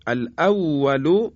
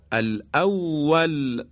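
First: الاول recited slow with the final u sounded, alawalu; الاول with a clear final u vowel; connected form, vowel kept. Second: الاول recited slow, stopping dead on a silent l; الاول drawn out and closed on l; pausal form, silent ending. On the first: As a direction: recite الاول running on, ending in u. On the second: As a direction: stop on الاول with no final vowel. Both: Shown as a demonstration.

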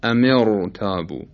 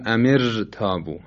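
First: Slow امر تابو with a thick ر; heavy r. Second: امر تابو with a thin, light ر; light r, mistaken. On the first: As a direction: recite امر تابو with a full, velarized r. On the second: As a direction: say امر تابو with the r left unthickened. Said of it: "ترقیق کنیم، بگیم". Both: Shown as a demonstration.

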